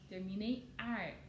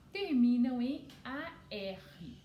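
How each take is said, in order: First: Ar said as one syllable, like a word ending; sounded-out ending. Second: A R said slowly as two letter names, "a, erre"; spelled-out letters. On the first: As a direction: blend ar into a single sound. (ar pronunciado como uma sílaba só) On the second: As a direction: spell out A R firmly, slow and loud. (A R soletrado devagar, "a, erre") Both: Shown as a demonstration. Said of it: "que tem o som de ar".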